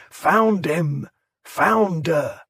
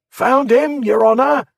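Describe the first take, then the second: First: Chant. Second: High, loud crowd cry; shout. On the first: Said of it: "the crowd's chant". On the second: A man in the mob shouting to the crowd, loud high cry. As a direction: yell it out to the whole street. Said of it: "somebody shouted". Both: A narrator's reading.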